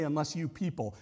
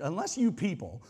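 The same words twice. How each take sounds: First: Said in the usual way. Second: Contentious. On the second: Shown as a demonstration. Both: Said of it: "it sounds really, like, contentious".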